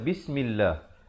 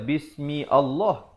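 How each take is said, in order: First: Bismi runs straight into llah without a break. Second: Allah starts with its own separate vowel. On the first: The speaker calls it right. "kita baca Bismillah" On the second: The speaker calls it wrong. "Kita tak baca Bismi Allah"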